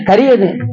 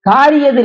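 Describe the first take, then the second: First: The first vowel is kept short. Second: The first vowel is held long. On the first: The speaker calls it right. "நெடில் வராது" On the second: The speaker calls it wrong. "இல்ல"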